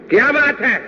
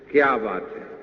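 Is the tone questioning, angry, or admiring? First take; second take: angry; admiring. First: It is said angrily, like a scolding. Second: It is said warmly, like praise.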